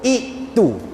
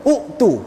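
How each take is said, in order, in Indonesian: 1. Kata "itu" diawali dengan vokal i. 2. Kata "itu" diawali dengan vokal u.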